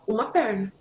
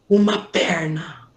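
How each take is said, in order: First: It is said in a plain, natural, everyday tone. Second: It is said in an awkward, hushed, secretive tone. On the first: The body part is treated as ordinary. The speaker calls it right. "você fala uma perna" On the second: The body part is treated as something taboo. The speaker calls it wrong. "você não fala assim"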